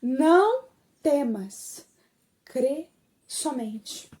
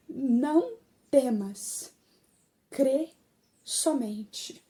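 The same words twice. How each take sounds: First: "Não" alongado e mais forte, "temas" caindo; "Não" e "crê" bem esticados, com pausas; repetição enfática. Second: Devagar, com pausas, baixando no fim; solene. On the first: Same words repeated for emphasis. (repete devagar, pesando "Não temas") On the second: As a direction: palavras de Jesus ditas com calma e peso. Jesus's words, first solemn saying. (manso e solene) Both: Retold or imitated.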